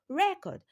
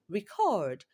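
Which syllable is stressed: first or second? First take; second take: first; second. First: The stress is on the first syllable. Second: The stress is on the second syllable. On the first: "has its stress on the first syllable" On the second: "has its stress on the second syllable"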